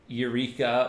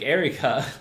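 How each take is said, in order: First: It is said the usual way, not like Erica. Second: It is said sounding like the name Erica. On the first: This is the common way of saying it. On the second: This is how the band itself says it.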